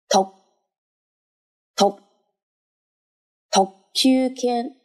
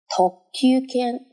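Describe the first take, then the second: First: The first syllable is hit very hard, almost stuttered. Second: The first syllable is only moderately strong. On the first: "当然你不需要发音的时候那么的重" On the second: "但是特一定是比较重的"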